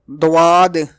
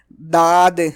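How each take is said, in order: First: The first consonant has a w after it. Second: The first consonant is a plain, light d. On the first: "Some people pronounce it like Dad or Dwad, which is wrong" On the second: "Some people pronounce it like Dad or Dwad, which is wrong"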